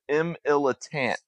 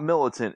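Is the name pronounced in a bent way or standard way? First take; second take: bent; standard. First: The syllables are bent and stretched in a twang. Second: The syllables are pronounced in the standard way. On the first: "It was M. Illitant. That was his alias" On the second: "his AKA was not Militant"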